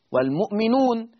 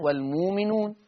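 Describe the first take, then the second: First: "والمؤمنون" with a glottal stop after mu; hamza sounded. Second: "والمؤمنون" with a long moo, no glottal stop; hamza turned to waw. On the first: Teacher giving it before substitution, "والمؤمنون" with hamza kept. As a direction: catch "والمؤمنون" on a still hamza. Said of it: "إبدال الهمز الساكن". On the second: Teacher showing the taught steps, "والمؤمنون" with long oo. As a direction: glide "والمؤمنون" as wal-moominoon. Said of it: "يبقى هجيبها واو". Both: Shown as a demonstration.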